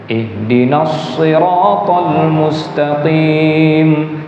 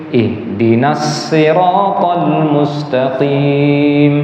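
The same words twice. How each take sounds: No difference in how they are said.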